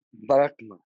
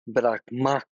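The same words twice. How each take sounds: First: Brahma stressed on "Brah", falling on "ma"; Brahma, strong opening syllable and a dropped "ma"; stress on first syllable. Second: Brahma stressed on the final "ma"; Brahma, landing firmly on the closing "ma"; stress on the last syllable. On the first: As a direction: say Brahma with no accent on the ending. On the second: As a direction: say Brahma with the accent at the end. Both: Shown as a demonstration. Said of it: "Que son diferentes".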